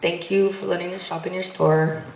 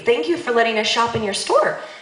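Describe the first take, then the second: First: It sounds insincere and perfunctory. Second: It sounds sincere and earnest.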